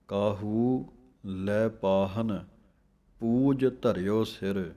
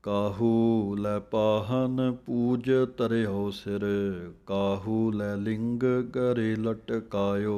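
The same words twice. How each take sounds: First: "ਕਾਹੂ ਲੈ ਪਾਹਨ", a pause, then "ਪੂਜ ਧਰਿਓ ਸਿਰ"; pause after ਪਾਹਨ. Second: Slow recital of "ਕਾਹੂ ਲੈ ਪਾਹਨ ਪੂਜ ਧਰਿਓ ਸਿਰ" in one flow; slow scripture recitation. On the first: Teacher showing students the pause after ਪਾਹਨ. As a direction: break the phrase after ਪਾਹਨ, slowly. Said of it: "ਇੱਥੇ ਵਿਸਰਾਮ ਹੈ". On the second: Teacher reciting the full line for students, slow. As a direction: read the whole line deliberately. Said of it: "ਕਾਹੂ ਪਾਠ ਬੋਲ ਕੇ ਥੋੜ੍ਹੀ ਜਮਕ ਹੈ". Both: Shown as a demonstration.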